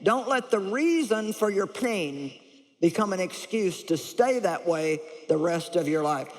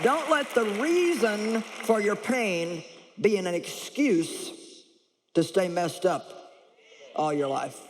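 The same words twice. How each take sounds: First: Slowed, stressing reason and stay; repeated for emphasis. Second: Slow, deliberate stress on reason; slow emphatic. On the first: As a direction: drive home reason and stay. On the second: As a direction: lean on each word, slowly. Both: Shown as a demonstration. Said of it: "I'm gonna say that again".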